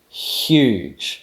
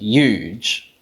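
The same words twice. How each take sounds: First: It begins with one hissing palatal fricative. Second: It begins with a y sound, no h. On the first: "you actually make a palatal fricative" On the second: "they just drop the glottal fricative"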